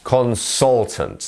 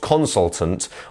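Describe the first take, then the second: First: The stress is on the middle syllable. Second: The stress is not on the middle syllable. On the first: The speaker calls it right. "our stressed syllable is the sol bit" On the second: The speaker calls it wrong. "not consultant"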